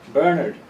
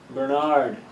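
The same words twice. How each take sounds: First: The stress is on the first syllable. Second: The stress is on the second syllable. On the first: This is the Irish way of saying it. "I'm from Ireland, and we stress the first syllable" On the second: This is the American way of saying it. "in the States... Stressing the second syllable"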